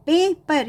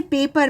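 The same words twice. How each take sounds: First: पेपर broken as पे, पर with a long ए; long A, split syllables. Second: Said in the usual way. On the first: Shown as a demonstration. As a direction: hold पे, then say पर in पेपर. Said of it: "यहाँ ए का long sound". (पेपर में लंबा ए, पे और पर अलग) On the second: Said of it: "ए का लॉन्ग साउंड आ रहा है".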